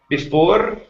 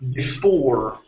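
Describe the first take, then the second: First: The final R is rolled. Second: The final R is not rolled. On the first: The speaker calls it wrong. "instead of saying before, rolling the R" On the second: The speaker calls it right. "ending on an R"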